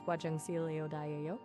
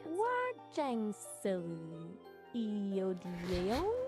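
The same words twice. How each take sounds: First: It is said at normal speed. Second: It is said very slowly.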